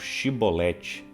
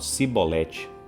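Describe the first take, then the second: First: The word begins with a sh sound. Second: The word begins with an s sound. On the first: The speaker is a Gileadite. "os gileaditas falavam shibolete" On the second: The speaker is an Ephraimite. "não conseguiam pronunciar o sh. Então, eles falavam cibolete"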